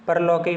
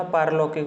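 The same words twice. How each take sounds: First: परलौकिक with short प, par-laukik; wrong form. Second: पारलौकिक with long आ, paar-laukik; correct form. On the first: Teacher to students showing the wrong word, short पर in परलौकिक. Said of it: "नहीं होता". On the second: Teacher to students giving the right word, long पार in पारलौकिक. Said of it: "होता है". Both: Shown as a demonstration.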